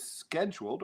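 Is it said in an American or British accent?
American. It is said in an American accent.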